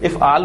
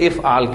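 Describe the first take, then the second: First: The final consonant is followed by a vowel. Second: The word ends on a bare consonant. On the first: "मैं इफ आल नहीं कह रहा" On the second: "हम आखिरी हर्फ चूंकि साकिन करके बोलते हैं उर्दू में"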